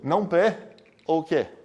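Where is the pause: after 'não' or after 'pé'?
after pé. A pause comes right after the word pé. The negation covers only the first proposition. The speaker calls it wrong. "Isso seria outra coisa"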